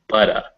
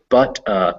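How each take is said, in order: First: The words fuse with a soft D sound. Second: The two words are said separately.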